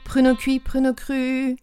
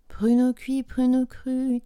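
First: The initial consonants are crisp and explosive. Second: The initial consonants are soft and barely audible. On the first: The speaker calls it right. "il faut vraiment entendre le p, le pr" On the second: The speaker calls it wrong. "Et pas pruneau cuit, pruneau cru. Non"

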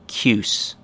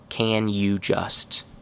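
First: All three words merge into one short syllable. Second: Each of the three words is said fully. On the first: "most chewing gum-like pronunciation" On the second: "Very correct, but nobody actually says it this way"

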